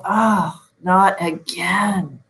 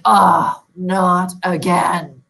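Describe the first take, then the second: First: Frustrated groan. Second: A drawn-out groan of annoyance, louder on Oh and slow on not again; frustrated groan. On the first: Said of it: "Am I saying". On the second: Sleep coach imitating a client woken at night, frustrated groan. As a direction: sigh it like you've woken up yet again. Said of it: "Do I sound like I'm calm and resting? No". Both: Retold or imitated.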